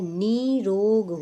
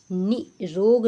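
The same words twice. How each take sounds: First: Slow निरोग with a drawn-out "nee"; long ee in निरोग; correct long-vowel demo. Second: निरोग with a short, cut-off "ni"; quick first i in निरोग; wrong short-vowel demo. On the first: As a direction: stretch the first vowel of निरोग, "neee-rog". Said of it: "ना में बड़ी की मात्रा". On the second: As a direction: say निरोग as "ni, rog". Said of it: "निरोग नहीं होता है". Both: Shown as a demonstration.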